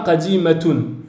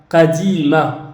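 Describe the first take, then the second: First: The word ends with a pronounced -tun syllable. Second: The word ends on a vowel, without -tun. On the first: This is the full written form, not used in speech. The speaker calls it wrong. "On ne dit pas qadimatun" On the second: This is how it is said in everyday speech. The speaker calls it right. "On va plutôt dire à l'oral"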